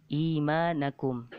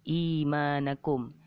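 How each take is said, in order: Both takes have the same delivery.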